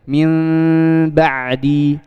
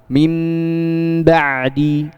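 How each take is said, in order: First: The lips part slightly on the nasal sound. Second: The lips close fully on the nasal sound. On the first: "Jadi sedikit aja bukanya" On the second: "maka tutuplah dengan sempurna"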